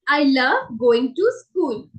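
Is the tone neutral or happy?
neutral. It is said in a plain, neutral tone.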